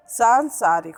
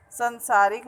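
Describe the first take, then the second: First: Long, stressed "saan" opening सांसारिक; correct long vowel. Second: Short first vowel in संसारिक, "san-saarik"; mispronounced संसारिक. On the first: Teacher correcting a common error, सांसारिक with long "saan". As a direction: stretch the first aa of सांसारिक. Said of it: "ऐसे संसारिक का सांसारिक होता है". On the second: Teacher quoting how people get it wrong, संसारिक with short "san". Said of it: "तो ये अशुद्ध उच्चारण है". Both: Shown as a demonstration.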